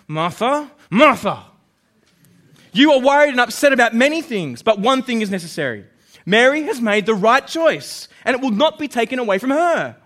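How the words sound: It is said in an angry tone.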